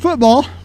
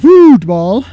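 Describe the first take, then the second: First: The first syllable is said plainly, without extra force. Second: The first syllable is hit with strong force. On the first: It means the American game. "that's American style" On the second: It means soccer. "they really hit that foot"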